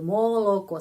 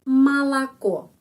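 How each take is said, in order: First: The first two vowels sound like 'o'. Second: The first two vowels sound like 'a'. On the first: The speaker calls it wrong. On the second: The speaker calls it right.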